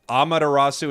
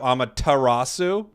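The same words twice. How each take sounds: First: The t sound is dropped or weakened. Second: The t sound is clearly pronounced. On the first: The speaker calls it wrong. "You're worried that I'm missing the t" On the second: The speaker calls it right. "instead of Amaterasu"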